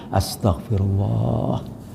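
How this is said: It is said in a calm, humble tone. The person sincerely asks forgiveness with regret. The speaker calls it right. "ya Allah mohon ampun aku"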